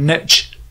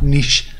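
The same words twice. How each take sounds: First: It is said with an American pronunciation. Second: It is said with a British pronunciation.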